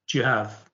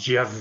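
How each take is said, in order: First: It is said faster than normal speech. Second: It is said extremely fast and blurred together. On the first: "the sort of speed that we wouldn't normally use in a classroom" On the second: "a farcical end"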